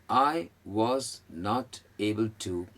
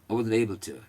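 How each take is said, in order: First: Five separate words are said one by one. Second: The words run together as one sound. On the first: "ये पांच शब्द" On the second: "एक sound बन जाएगा"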